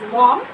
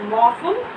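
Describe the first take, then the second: First: The name is said with one syllable. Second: The name is said with two syllables. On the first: "some of them call it as Mom" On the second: "pronounce this word as Mopham"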